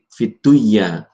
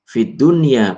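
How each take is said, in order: First: The n sound merges into the next sound. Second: The n sound is pronounced clearly. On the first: The speaker calls it wrong. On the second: The speaker calls it right.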